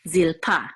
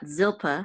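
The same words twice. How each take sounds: First: The stress is on the last syllable. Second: The stress is on the first syllable. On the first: The speaker calls it right. "the accent is on the last syllable" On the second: The speaker calls it wrong. "not Zilpa"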